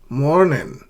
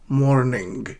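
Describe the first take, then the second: First: The final g sound is dropped. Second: The final g sound is clearly pronounced. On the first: "I'm dropping the g. It's just morning" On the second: "not morning. G"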